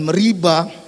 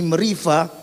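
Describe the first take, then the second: First: The middle consonant is a b sound. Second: The middle consonant is a v sound. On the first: The speaker calls it wrong. "bukan meriba, karena tidak ada titik dages di situ" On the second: The speaker calls it right. "meriva bisa dibaca ini meriva"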